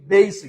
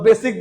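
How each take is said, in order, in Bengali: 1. প্রথম স্বরধ্বনিটি 'ei' ধ্বনি হিসেবে গ্লাইড করে। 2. প্রথম স্বরধ্বনিটি সাধারণ 'e' ধ্বনি। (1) "ইট শুড বি" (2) "আসলে বেসিকও না"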